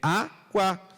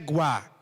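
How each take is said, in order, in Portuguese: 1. A vogal inicial é claramente pronunciada. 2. A vogal inicial é omitida da palavra. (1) "é água" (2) "não é guá"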